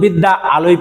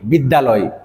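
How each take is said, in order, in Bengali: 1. দুই অংশ আলাদাভাবে বলা হয়, দুটো আ-ই উচ্চারিত হয়। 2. দুটো আ মিলে একটি মাত্র আ-ধ্বনি হয়ে যায়। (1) "আমরা কিন্তু বিদ্যা আলয় পড়ি না" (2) "দুটো আ মিলে এখানে একটি আ হয়ে"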